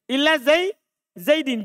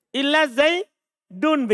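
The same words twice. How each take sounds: First: "Zaidin" closing on -din; genitive -in ending. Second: "Zaidun" slowly, ending in -un; "Zaidun" closing on -dun; nominative -un ending. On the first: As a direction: read "Zaidin" with the -in case ending. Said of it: "Kalau saya baca an-nasi". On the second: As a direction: read "Illa Zaidun" slowly with the -un case ending. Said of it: "Berarti kita baca apa Zaid?". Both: Shown as a demonstration.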